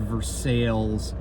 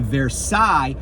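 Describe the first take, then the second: First: The name is pronounced the English way. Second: The name is pronounced the French way. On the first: "although it might be Versailles" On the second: "I say Versailles because I took French in high school"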